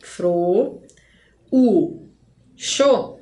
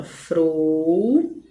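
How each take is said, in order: First: "fro, u, xo" as three separate syllables; split as a hiatus. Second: "Frouxo" as a long held "frou", pause, then "xo"; split into two syllables. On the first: Teacher showing a hiatus, "fro, u, xo" in three detached beats. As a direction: break the "u" away from "fro", pause, then "xo". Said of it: "Se as sílabas ficassem assim". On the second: Teacher separating syllables for students, "Frouxo" in two drawn-out parts. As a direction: keep "ou" together in "Frouxo", break before "xo". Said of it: "vou separar a sílaba". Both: Shown as a demonstration.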